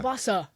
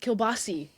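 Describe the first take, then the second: First: The word ends with an 'ah' vowel. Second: The word ends with an 'ee' vowel. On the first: The speaker calls it right. "kielbasa, not kielbasi" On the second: The speaker calls it wrong. "not kielbasi"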